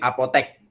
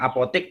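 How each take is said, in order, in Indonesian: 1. Vokal terakhirnya bunyi e. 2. Vokal terakhirnya bunyi i. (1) "tapi apotek. Apotek yang benar" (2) "bukan apotik"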